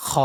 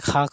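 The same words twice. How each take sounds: First: "খ" as a throaty fricative with a rounded o vowel; correct heavy kho. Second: "খা" with an open aa vowel; wrong thin kha. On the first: ("খ" গলা থেকে মোটা করে) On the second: ("খা" পাতলা আ-স্বরে) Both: Shown as a demonstration. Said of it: "খা কইলে উচ্চারণ হবে না".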